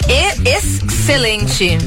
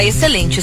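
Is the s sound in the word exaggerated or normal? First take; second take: exaggerated; normal. First: The s sound is strongly exaggerated. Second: The s sound is pronounced normally. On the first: The speaker calls it wrong. "Com um S tão forte" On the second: The speaker calls it right. "eu tentei dizer que estava"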